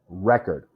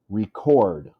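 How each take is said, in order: First: The stress is on the first syllable. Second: The stress is on the second syllable. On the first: It is the noun. "Record is a noun" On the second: It is the verb, meaning to write something down. "This is the verb"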